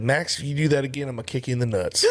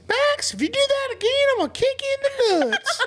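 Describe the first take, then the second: First: It is said in his normal voice. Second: It is said imitating the lady's voice.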